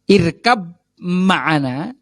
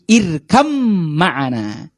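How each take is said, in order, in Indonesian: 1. Kata pertama berakhir dengan bunyi b yang jelas. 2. Kata pertama berakhir dengan bunyi m. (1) "Nanti bapak-bapak akan mendapati di teksnya itu irkab ma'ana" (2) "cuman bacanya jadi irkam ma'ana"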